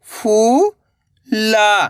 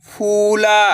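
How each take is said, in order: First: फू, long pause, ला; फूला split slowly, rising then falling; syllable by syllable. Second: फूला joined, long vowels; blended word. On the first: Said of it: "एक अक्षर का उच्चारण करना है". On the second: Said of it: "तो मिलके बन जाएगा". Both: Shown as a demonstration.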